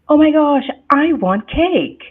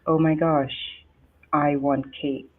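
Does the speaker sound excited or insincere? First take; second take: excited; insincere. First: The voice sounds warm, eager and excited. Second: The voice sounds cold, flat and insincere. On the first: The speaker truly wants the cake. "oh my gosh, Rochelle is excited. She loves cake" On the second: The speaker does not really mean it. "That's not warm and fuzzy. That's almost like Roshala telling you a lie"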